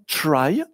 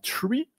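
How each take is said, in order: First: The vowel sounds like the word 'try'. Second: The vowel sounds like the word 'tree'. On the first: It avoids confusion with the word for a tree. "On prononce souvent try pour ne pas confondre avec un tree" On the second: It matches the fact that the structure is a tree. "ça pourrait aussi se prononcer comme ça"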